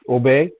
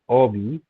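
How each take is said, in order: First: The word ends with an 'ay' vowel. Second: The word ends with an 'ee' vowel. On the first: The speaker calls it right. "It's obey" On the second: The speaker calls it wrong. "not obi. Most of you have been reading it obi"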